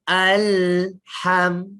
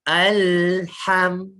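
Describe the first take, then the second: No difference in how they are said.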